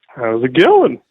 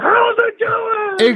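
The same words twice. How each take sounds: First: It is said with low energy. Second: It is said with high energy.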